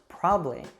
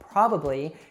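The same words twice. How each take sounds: First: One middle syllable of the word is dropped. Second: Every syllable of the word is pronounced.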